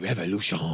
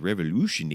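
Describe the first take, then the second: First: It is said in a French accent. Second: It is said in a Canadian accent. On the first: "we always have to say revolution in a French accent" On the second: "You never hear it in a Canadian accent"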